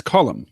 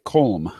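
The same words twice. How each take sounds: First: Colm said as KOL-um, short o; two-syllable Colm. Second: Colm said as one syllable with a long o; spelling pronunciation. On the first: Repeating the name back as corrected, Colm in two syllables. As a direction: say Colm like "Collum". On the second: Showing how the written name looks, Colm as one long-o syllable. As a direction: say Colm like "coalm". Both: Shown as a demonstration. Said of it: "It looks like Colm".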